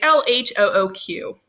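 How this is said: The letters are named with English letter sounds. "we're speaking English, right? So we say"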